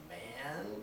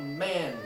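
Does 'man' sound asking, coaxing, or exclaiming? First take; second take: coaxing; exclaiming. First: The word is said in a coaxing, pleading way. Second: The word is said as a strong exclamation. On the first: The speaker is trying to persuade someone. "we are persuading someone" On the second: The speaker is reacting strongly to something. "That is a strong exclamation"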